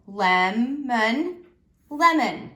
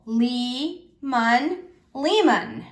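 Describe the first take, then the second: First: Lemon with a short eh, as in lemon; teacher reads the right short-vowel version. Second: Lee-mon with a long ee, then lemon the same; teacher tries the wrong long-vowel reading; long e try. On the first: Teacher modelling the correct reading for students, short e. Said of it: "let's read syllable by syllable". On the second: Teacher testing a first cut for the class, long e. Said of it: "let's read now syllable by syllable". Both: Shown as a demonstration.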